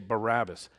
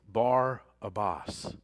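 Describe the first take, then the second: First: The name runs together as one smooth word. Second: The name is split into Bar and Abbas. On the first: The speaker calls it wrong. "we say it wrong, we say Barabbas" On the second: The speaker calls it right. "Actually, it's Bar-Abbas"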